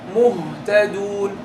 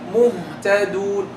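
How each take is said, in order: No difference in how they are said.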